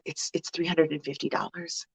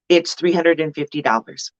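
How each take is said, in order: First: It is said haltingly, with a stammer and doubt. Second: It is said firmly and clearly, without hesitation. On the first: The price is stated as if apologizing for it. The speaker calls it wrong. "it's not, oh, well" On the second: The price is stated as fully worth it. The speaker calls it right. "you just say it with confidence, with clarity, with um, no hesitation"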